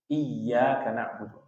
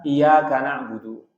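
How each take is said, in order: First: The y sound is doubled and held long. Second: The y sound is single and short. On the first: You alone we worship. The speaker calls it right. "harus kita perjelas tasydidnya" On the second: To you, O sun, we worship. The speaker calls it wrong. "kepada kamulah wahai matahari aku menyembah"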